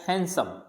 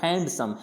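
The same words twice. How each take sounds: First: No d sound is heard after the n. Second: A d sound is pronounced after the n. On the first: The speaker calls it right. "ये डी नहीं बोला जाता है, इसको बोला जाता है" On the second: The speaker calls it wrong. "अपन क्या बोलते हैं इसको"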